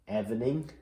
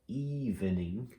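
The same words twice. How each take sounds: First: The first vowel is a short 'eh' sound. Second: The first vowel is a long 'ee' sound. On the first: The speaker calls it wrong. "evening doesn't sound right" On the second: The speaker calls it right. "when I try it with an E"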